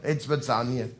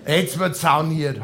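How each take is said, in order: First: "Jetzt wird sauniert" said lower and much softer; quiet repeat. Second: "Jetzt wird sauniert" drawn out slowly, "wird" stressed; slow announcement. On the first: Repeats his sauna plan to himself, quietly. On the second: Decides to go to the sauna, slow proclamation. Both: Shown as a demonstration.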